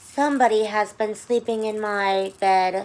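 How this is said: The voice is soft, sweet and low. "in her soft, sweet, low voice"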